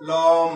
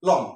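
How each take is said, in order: First: লম stretched slowly, the wrong way; wrongly drawn out. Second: লম said short, cut off at the ম; short and stopped. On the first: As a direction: show লম held too long as a mistake. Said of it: "এভাবে না". (লম ভুলভাবে টেনে বলা) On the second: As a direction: clip লম and stop at once. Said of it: "থেমে যেতে হয়". (লম ছোট করে থেমে বলা) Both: Shown as a demonstration.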